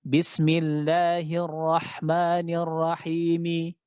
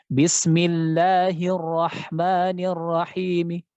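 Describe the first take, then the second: First: Said in the usual way. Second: Bismillahirrahmanirrahim dibaca pelan dengan suara samar; rom, half-voiced. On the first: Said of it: "kalau yang jelas kan seperti ini ya". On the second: Shown as a demonstration. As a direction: baca rom, harakat hampir tak terdengar. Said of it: "Nah, seperti itu. Itu rom". (bacaan rom yang samar)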